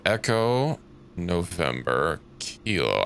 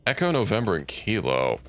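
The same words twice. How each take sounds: First: Slow, each code word set apart, rising on Echo and November; slow spelled-out codes. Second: Said in the usual way. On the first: Shown as a demonstration. Player reading task codes to themself, slow and deliberate. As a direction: read the codes out one by one, slowly. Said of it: "in that exact order". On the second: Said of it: "So, Echo, November, Kilo".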